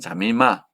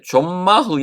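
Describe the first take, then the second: First: An i vowel is heard after the first m. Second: No vowel is heard after the first m. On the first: The speaker calls it right. "또 자미마도 됩니다" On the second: The speaker calls it wrong. "이렇게 발음하는 게 아니고"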